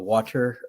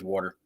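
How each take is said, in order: First: It is said the general way. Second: It is said in a New Jersey accent.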